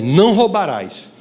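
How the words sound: It is said as a firm command. It forbids the person to steal. "como uma ordem"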